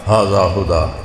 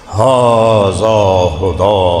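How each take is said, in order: First: It is said plainly, without challenge. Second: It is said in a challenging tone.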